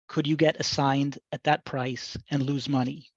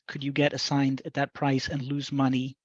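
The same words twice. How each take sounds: First: It is read slowly. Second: It is read at normal speed.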